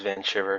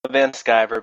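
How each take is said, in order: First: The surname begins with an 'sh' sound. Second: The surname begins with an 'sk' sound. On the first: It is a German-style pronunciation. "everybody says Van Shiver" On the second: It is an American-style pronunciation.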